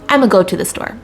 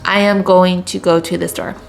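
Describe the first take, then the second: First: The start is squeezed into one short syllable. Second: The start is said as full separate words.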